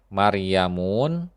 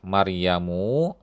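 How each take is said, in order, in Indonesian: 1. Kata itu berakhir dengan bunyi 'un'. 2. Kata itu berakhir dengan bunyi 'u'. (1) "lafaz yang keliru" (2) "yang benar adalah"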